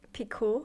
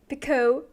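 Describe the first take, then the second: First: The word is said with a French pronunciation. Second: The word is said with an American pronunciation. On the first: "No, that's" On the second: "I was just thinking of the American pronunciation. I was like"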